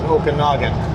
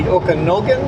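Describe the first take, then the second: First: The third vowel falls between A and O. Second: The third vowel sounds like an O. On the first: This is how people on both sides actually say it. "halfway in between is Okanagan, so we both pronounce it Okanagan" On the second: This is how the US spelling suggests saying it. "If you pronounce it the U S way"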